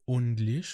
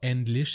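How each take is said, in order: First: The first vowel is replaced by a 'u' sound. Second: The first vowel is the usual 'e' sound. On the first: "ont remplacé le E par un U" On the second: "c'est pas English"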